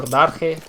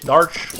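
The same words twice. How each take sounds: First: Darche said "DAR-heh"; two syllables. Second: Darch said as one syllable; ends in sh. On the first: Streamer trying a viewer's name, Darche as "DAR-kheh". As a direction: add a breathy "kheh" ending to Darche. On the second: Streamer trying a viewer's name, Darch ending in "sh". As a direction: end Darch on a "sh" sound. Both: Shown as a demonstration. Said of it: "It depends what accent".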